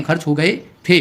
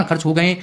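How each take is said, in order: First: Final थे set off with a rising tune; खर्च हो गए, then a clear थे; stress on थे. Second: Said in the usual way. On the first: Shown as a demonstration. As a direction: lean on the last word थे, voice rising. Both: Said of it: "अभी थोड़ी ना खर्च हुए हैं".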